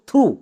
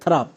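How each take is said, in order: First: The word ends with an oo vowel. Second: The word ends with a p sound. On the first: The speaker calls it right. "এর উচ্চারণ করব থ্রু।" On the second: The speaker calls it wrong. "একদমই ভুল উচ্চারণ।"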